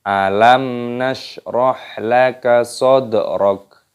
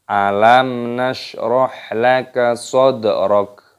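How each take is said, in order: No difference in how they are said.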